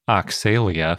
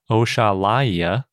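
First: The middle consonant is said as 'ks'. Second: The middle consonant is said as 'sh'. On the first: The speaker calls it wrong. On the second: The speaker calls it right.

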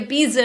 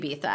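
First: The name is pronounced the American English way. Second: The name is pronounced the Spanish way. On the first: This is how Americans say it. The speaker calls it wrong. "we say Ibiza in the U.S" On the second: This is how it should be said. The speaker calls it right. "I know that it should be Ibiza"

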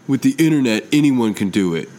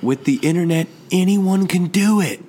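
First: It is said in a dismissive, scornful tone. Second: It is said in an encouraging, upbeat tone.

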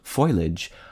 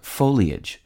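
First: It has two syllables, starting like foil. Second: It has three syllables, ending in lee-ij. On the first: "its association with the non-standard spelling F-O-I-L-A-G-E" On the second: "Most commonly accepted is the trisyllabic foliage"

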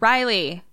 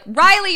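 First: The name is said quietly. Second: The name is called out loudly.

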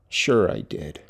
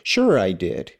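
First: It is said in a subdued, less joyful tone. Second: It is said in a joyful, bright tone. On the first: The speaker calls it right. "maybe cut down on the joyousness" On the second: The speaker calls it wrong. "I need to change my tone"

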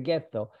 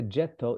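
First: The word begins with a hard g sound. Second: The word begins with a soft j sound. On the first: It is the foreign pronunciation that stuck. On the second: It is the original local pronunciation. "they could not pronounce the J for gettare"

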